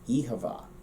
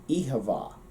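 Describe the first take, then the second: First: The second word has a clear v sound. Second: The same.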